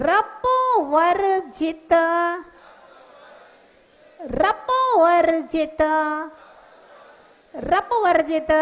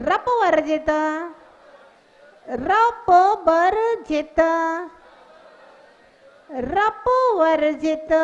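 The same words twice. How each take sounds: No difference in how they are said.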